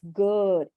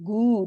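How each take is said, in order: First: The vowel is short with relaxed lips. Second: The vowel is a long oo with rounded lips. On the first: The speaker calls it right. "So your lips are not going forward" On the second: The speaker calls it wrong. "saying the double O like the usual oo sound"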